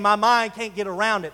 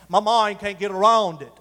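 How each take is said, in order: First: It is said in the speaker's plain accent. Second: It is said in an Australian accent.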